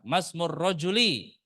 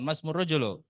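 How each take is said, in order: First: The last word ends with an 'i' vowel. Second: The last word ends with a 'u' vowel. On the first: The noun is in the genitive case. The speaker calls it right. "masmur rajuli, bukan masmur rajulu" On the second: The noun is in the nominative case. The speaker calls it wrong. "bukan masmur rajulu"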